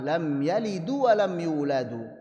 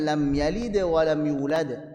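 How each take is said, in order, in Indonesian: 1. Kata kerjanya berakhir dengan vokal 'u' tambahan. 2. Kata kerjanya berakhir dengan konsonan mati. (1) "dibaca dengan dhammah" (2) "Harusnya sukun"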